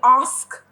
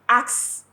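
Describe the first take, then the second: First: The s sound comes before the k. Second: The k sound comes before the s. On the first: A listener hears a request clearly. The speaker calls it right. "I'm saying ask" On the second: A listener may hear it as a tool. The speaker calls it wrong. "I'm not saying axe"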